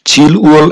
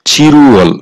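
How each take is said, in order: First: The two parts are said separately with an L. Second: The parts are linked with an R sound.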